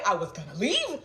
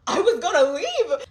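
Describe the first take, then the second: First: Said in the usual way. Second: "I was gonna leave" said higher, louder and slower; high, loud, slow insistence on "leave"; emphatic repeat. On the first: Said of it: "repeat louder". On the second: Real, not acted. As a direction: hammer home "I was gonna leave" the second time.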